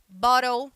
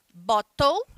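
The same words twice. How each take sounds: First: The middle T sounds almost like an R. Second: The middle T is clearly pronounced. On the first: "ele quase vira um R" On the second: "esse T ele é pronunciado"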